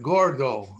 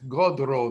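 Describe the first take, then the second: First: It is pronounced the standard Spanish way. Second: It is pronounced the Ladino way, d and r swapped.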